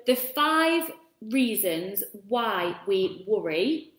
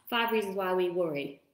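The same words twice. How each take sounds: First: Slow, spaced-out words with a lead-up; slow, careful. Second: Quick tongue-twister run-through; said fast. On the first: Real, not acted. Host announcing the five reasons why we worry, slow and careful. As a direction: take each word of the tongue-twister slowly. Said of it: "that's actually really hard to say". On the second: Shown as a demonstration. Host showing viewers the hard-to-say phrase, said fast. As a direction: rattle it off as a speed test. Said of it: "Try and say that really fast".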